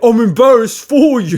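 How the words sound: It is said in an imitated London accent.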